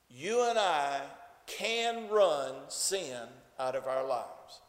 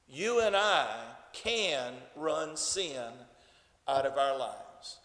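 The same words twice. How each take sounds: First: It is said in a plain, ordinary tone. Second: It is said forcefully with strong determination.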